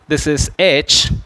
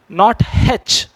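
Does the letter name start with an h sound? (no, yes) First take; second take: no; yes. First: The letter name starts with a vowel sound. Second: The letter name starts with an h sound. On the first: The speaker calls it right. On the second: The speaker calls it wrong. "The sound H should not be there in this when you speak"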